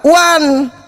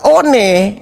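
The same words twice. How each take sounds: First: The word is read with English pronunciation. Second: The word is read with Indonesian pronunciation. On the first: The word is taken from English. "orang barat membacanya one" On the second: The word is presented as native Indonesian. "Kata one itu kan kata Indonesia"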